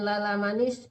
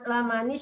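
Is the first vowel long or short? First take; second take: long; short. First: The first vowel is drawn out long. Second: The first vowel is short. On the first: The speaker calls it wrong. "bukan lala manis" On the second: The speaker calls it right. "Lanya cuma satu ya"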